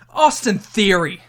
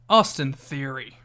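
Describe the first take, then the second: First: It is said in an angry, heated tone. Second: It is said in a calm, neutral tone. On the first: "you got to give me a mad one" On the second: "I'm giving you three"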